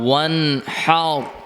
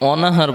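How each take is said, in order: First: The n closes the first syllable: wan-har. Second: The n joins a vowel: o-na-har. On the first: The speaker calls it right. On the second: The speaker calls it wrong.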